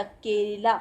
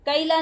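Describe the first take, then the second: First: केला said with a plain ए (e) vowel; केला pronounced correctly with ए; correct e sound. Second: कैला said with an ऐ (ai) vowel instead of ए; कैला pronounced wrongly with ऐ as a correction example; wrong ai sound. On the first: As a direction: say केला the right way with a short pure ए. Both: Shown as a demonstration. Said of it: "कैला नहीं होता".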